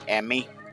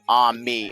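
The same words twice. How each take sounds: First: It sounds like am I. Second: It sounds like ah-mee. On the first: It is an abbreviation for Amazon machine. "pronounced A like A M I, as in um am I" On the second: It is the French word for friend. "It's pronounced ami, as in A H M E E"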